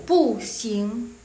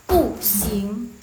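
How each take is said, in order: The two takes are said the same way.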